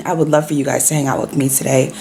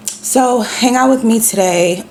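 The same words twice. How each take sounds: First: Said in the usual way. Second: High, cracking voice with a frog in the throat. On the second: Real, not acted. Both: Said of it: "Oh my God, I'm so sorry".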